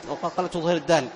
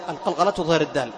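Both takes have the same delivery.

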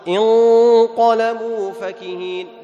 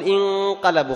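First: انقلبوا فكهين chanted slowly with a heavy nasal ghunna; heavy sung ghunna. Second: انقلبوا with a light, thin nasal ghunna; wrong thin ghunna. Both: Shown as a demonstration. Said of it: "خطأ".

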